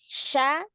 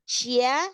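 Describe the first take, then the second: First: The sh sound goes straight into the vowel. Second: A y-glide follows the sh sound. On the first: The speaker calls it right. "Tapi sya. Langsung" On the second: The speaker calls it wrong. "jangan syia. Jangan ada y-nya"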